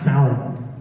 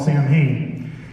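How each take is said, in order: First: The word has an Irish pronunciation. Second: The word has an American pronunciation. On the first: The speaker calls it right. "I think it's pronounced Samhain" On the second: The speaker calls it wrong. "Americans call Samhain"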